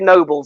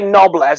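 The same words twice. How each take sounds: First: The first vowel is long, as in noble. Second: The first vowel is short, as in knob. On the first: It suggests he is noble. "it sounds like he's noble" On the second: It suggests he is a fool. "he sounds like a knob"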